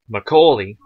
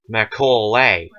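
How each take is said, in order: First: The last syllable sounds like 'lee'. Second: The last syllable sounds like 'lay'. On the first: This is how the family says the name. "is actually not spelt how I just said it" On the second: This is how the spelling suggests the name is said. "It is spelt to be said Macaulay"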